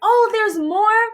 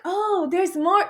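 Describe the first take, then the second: First: High, drawn-out fake delight; feigned excitement. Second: Slow, higher, unconvinced show of interest; half-hearted feigned excitement. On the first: Covering jealousy at her news, brightly feigned excitement. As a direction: push up a keen question you don't mean. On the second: Retold or imitated. Reacting to her news, half-hearted feigned excitement. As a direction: try to sound pleased, without much force. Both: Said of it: "trying to act like I'm excited".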